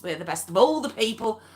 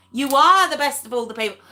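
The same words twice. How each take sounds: First: Said in the usual way. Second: ARE punched high and loud; quick line with a big lift on "are"; stress on ARE. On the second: Real, not acted. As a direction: lean hard on the word "are". Emphatic restatement stressing are.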